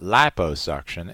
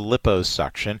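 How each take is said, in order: First: The first syllable sounds like 'lie'. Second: The first syllable sounds like 'lip'. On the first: This is the form most people adopted. "they started calling it liposuction" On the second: This form matches the word lipid. "we maintained the liposuction with that Chicago accent"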